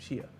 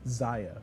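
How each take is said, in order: First: The name begins with an 'sh' sound. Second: The name begins with a 'z' sound. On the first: The speaker calls it right. "the reason why I call it Shia" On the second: The speaker calls it wrong. "Cody Miller says the name ... is Zaya, and Cody's wrong"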